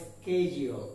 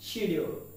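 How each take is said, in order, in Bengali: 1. শব্দটি 'ske' ধ্বনি দিয়ে শুরু হয়। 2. শব্দটি 'shi' ধ্বনি দিয়ে শুরু হয়। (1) "নয়তো স্কেডিউল" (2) "উচ্চারণটাকে আমরা শিডিউল উচ্চারণ করে থাকি"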